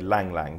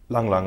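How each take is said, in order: First: The vowel sounds like the one in 'lang'. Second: The vowel sounds like the one in 'lung'. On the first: The speaker calls it wrong. "Some people would say Lang Lang, but that's wrong" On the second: The speaker calls it right. "that is the correct way to pronounce your name"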